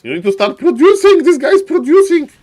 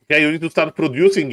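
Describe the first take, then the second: First: Loud urging shout; mock coaching yell. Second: Said in the usual way. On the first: Caster yelling at player.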